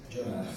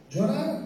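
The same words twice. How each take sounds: First: Quiet answer. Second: High, rising disbelief; surprised echo. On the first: Shown as a demonstration. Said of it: "¿Sabes lo que tienes que hacer?". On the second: Pretend. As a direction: echo the word as a shocked listener. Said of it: "¿Qué me está diciendo José Antonio?". (pregunta incrédula y aguda)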